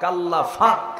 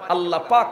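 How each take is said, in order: First: The second word begins with an f sound. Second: The second word begins with a p sound. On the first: "আল্লাহ পাক হয় না, আল্লাহ ফাক" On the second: "Noakhali প হয় না"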